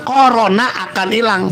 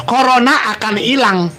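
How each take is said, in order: Both takes have the same delivery.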